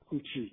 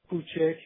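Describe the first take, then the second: First: The last vowel is closed, like 'i'. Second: The last vowel is mid, like 'e'. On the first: This is the fully colloquial form. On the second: This is a partly colloquial form.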